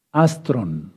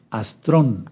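First: "Astron" stressed on AS; stress on first syllable. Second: "astrón" stressed on the O; stress on final syllable. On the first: Teacher first naming the Greek word, stress on the A of "Astron". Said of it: "o astrón más bien". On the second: Teacher correcting himself to an acute word, stress on the O of "astrón". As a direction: say "astrón" with the accent on the last syllable, TRON. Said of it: "con acento en la O". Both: Shown as a demonstration.

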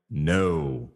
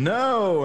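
First: Low, drawn-out groan of disappointment; dismayed no. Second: High-pitched, drawn-out retold yell; mock yell. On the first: Retold or imitated. Host voicing fans let down by the quarterback, dismayed. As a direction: let the no sink low and slow. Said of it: "at times you're like". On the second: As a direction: imitate a panicked yell without much volume. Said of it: "he lets loose and I'm yelling".

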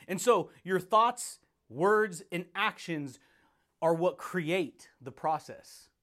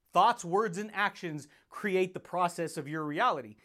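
First: Slow, weighty, word by word; slow emphasis. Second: Said in the usual way. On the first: Real, not acted. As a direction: land each word: thoughts, words, actions. Slow emphatic teaching phrase.

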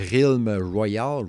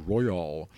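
First: "Royal" said the French way, "rwa-yal"; French-accented English. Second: "Royal" tried the English way, "roy-al"; attempted English accent. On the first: Host stumbling over an English game title, French-accented "Royal". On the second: Host correcting his English accent on a game title, English-style "Royal". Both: Real, not acted. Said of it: "j'ai de la misère avec mon accent anglais".

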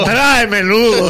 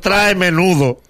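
First: "Trae menudo" slow, both words leaned on; repeated slower. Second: "trae menudo" slow, each word weighted; stress on trae menudo. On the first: Host repeats advice when asked, slow and firm. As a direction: spell out "Trae menudo" again. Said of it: "¿Cómo?". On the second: Host repeating advice to travelers, slow and emphatic. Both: Shown as a demonstration.

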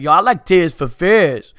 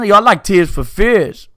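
First: Put-on Brooklyn accent. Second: Louder, higher Brooklyn guy voice; a hammed-up Brooklyn dude; Brooklyn accent. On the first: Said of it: "be like". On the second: Quoting the Brooklyn dude again, louder in a Brooklyn accent. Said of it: "dudes from Brooklyn just busting out".

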